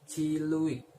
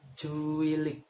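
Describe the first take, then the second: First: An extra u follows the second consonant. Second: An extra u follows the first consonant. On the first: This is how people from another region say it. "from Trenggalek say ciluik" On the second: This is how people from one region say it. "from Kediri say cuilik"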